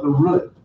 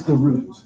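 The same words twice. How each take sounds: First: "root" said the grandmother's way, with a shorter vowel; grandmother's pronunciation. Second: Said in the usual way. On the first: Retold or imitated. Quoting grandmother's word for it, "root" in her pronunciation. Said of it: "if you're my grandmother, you would call it". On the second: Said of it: "if you're my grandmother".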